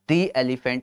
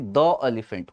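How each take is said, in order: First: 'The' is pronounced 'thee' before elephant. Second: 'The' is pronounced 'thuh' before elephant. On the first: The speaker calls it right. "दी elephant होता है" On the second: The speaker calls it wrong. "न कि द elephant होता है"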